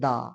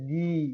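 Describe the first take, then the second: First: The word ends in a short 'ah' vowel. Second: The word ends in an 'ee' vowel. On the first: It comes before a consonant. "কনসোনান্টের পূর্বে যখন T H E থাকবে তাহলে উচ্চারণ হবে দা" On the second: It comes before a vowel. "ভাওয়েলের পূর্বে যদি T H E থাকে ... সেটা দি"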